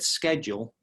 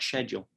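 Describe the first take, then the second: First: It begins with an 'sk' sound, American style. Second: It begins with a 'sh' sound, British style. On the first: "I said schedule" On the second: "not schedule"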